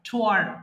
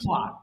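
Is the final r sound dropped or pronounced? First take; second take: pronounced; dropped. First: It ends with an audible r sound. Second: It ends without any r sound. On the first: This is the American way of saying it. "যদি American বলেন তাহলে আর যুক্ত করবেন" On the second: This is the British way of saying it. "আর যদি British বলেন তাহলে"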